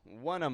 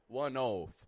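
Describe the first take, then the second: First: The word 'of' has a short uh vowel. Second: The word 'of' has a long oh vowel. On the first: The speaker calls it right. "is just pronouncing an uh, uh sound" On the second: The speaker calls it wrong. "or oaf"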